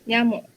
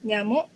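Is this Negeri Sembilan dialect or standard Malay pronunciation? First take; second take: standard Malay; Negeri Sembilan. First: It is said with standard Malay pronunciation. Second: It is said with Negeri Sembilan dialect pronunciation. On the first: "dalam bahasa Melayu standard" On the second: "Dan dialek Negeri Sembilan"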